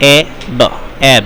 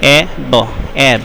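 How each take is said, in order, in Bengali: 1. প্রতিটি বর্ণ তার ধ্বনি দিয়ে উচ্চারণ করা হয়। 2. প্রতিটি বর্ণ তার ধ্বনি দিয়ে উচ্চারণ করা হয়।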